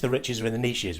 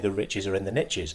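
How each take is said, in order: First: It is said in a British accent. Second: It is said in an American accent.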